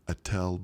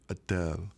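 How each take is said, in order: First: The name is said in the speaker's ordinary accent. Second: The name is said with an imitated foreign accent.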